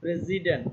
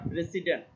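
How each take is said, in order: First: The middle consonant is a 'z' sound. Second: The middle consonant is an 's' sound. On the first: The speaker calls it right. "এসের উচ্চারণটা এখানে দেখো Z এর মতো হয়েছে" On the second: The speaker calls it wrong. "Not প্রেসিডেন্ট"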